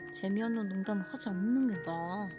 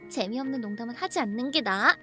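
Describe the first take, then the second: First: The line is said in a cold, chilling tone. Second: The line is said in a light, playful tone. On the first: The scolding is a genuine, icy rebuke. The speaker calls it right. "이게 아니라" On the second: The scolding is teasing and affectionate. The speaker calls it wrong. "이런 말투가 아니었어?"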